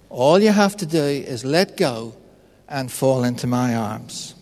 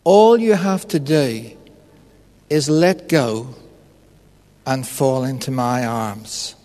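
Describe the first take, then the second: First: Voice of God, repeated. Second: Voice of God. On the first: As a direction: repeat the invitation gently, as God, trailing off. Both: Retold or imitated. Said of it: "the voice says to him".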